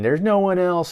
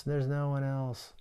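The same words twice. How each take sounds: First: Mild mock yell, higher and louder; a hammed-up mock scream of despair; retold scream. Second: Soft, defeated, trailing off; the scream collapsing into a quiet hopeless echo; faded despair. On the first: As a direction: shout it like the hero raging. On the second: Retold or imitated. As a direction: let it die away to a broken murmur.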